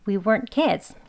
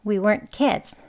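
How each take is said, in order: Both takes have the same delivery.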